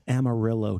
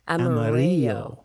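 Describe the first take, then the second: First: The name is pronounced the English way. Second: The name is pronounced the Spanish way. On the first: The speaker calls it wrong. "Why is it Amarillo, Texas?" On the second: The speaker calls it right. "It should be Amarillo"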